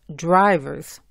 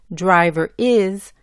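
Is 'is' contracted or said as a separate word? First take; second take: contracted; separate. First: The 'is' shrinks to a z sound on 'driver'. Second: The word 'is' is said as a separate syllable. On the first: "decimos drivers" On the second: "en vez de decir driver is"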